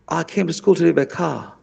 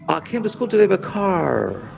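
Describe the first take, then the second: First: It is said in a British accent. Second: It is said in an American accent.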